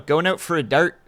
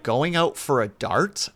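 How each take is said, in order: First: It is said with a Canadian accent. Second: It is said with a Dutch-sounding accent. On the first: The speaker calls it right. "the Canadian way to say it" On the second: The speaker calls it wrong. "You're using the wrong part of your tongue"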